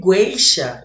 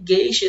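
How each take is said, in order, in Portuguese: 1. Um som de U é ouvido depois do G. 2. Nenhum som de U é ouvido depois do G. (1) "eu não falei gueixa" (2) "esse U não foi pronunciado"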